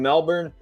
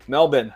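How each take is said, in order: First: It is said with an American pronunciation. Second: It is said with an Australian pronunciation.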